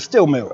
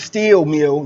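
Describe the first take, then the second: First: The vowel in steel is a short i. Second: The vowel in steel is a long ee. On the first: This is how locals say it. "You work at the steel mill" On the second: This is how outsiders say it. "you don't work at the steel mill"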